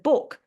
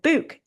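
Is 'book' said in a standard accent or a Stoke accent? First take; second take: standard; Stoke. First: The word is said in a standard accent. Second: The word is said in a Stoke accent.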